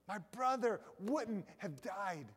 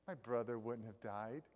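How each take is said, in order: First: The line is said in an angry, accusing tone. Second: The line is said in a soft, gentle tone. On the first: The speaker is blaming the listener for the loss. The speaker calls it right. "Martha was angry" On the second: The speaker is sadly lamenting without blame. The speaker calls it wrong. "don't think that Martha's saying, oh"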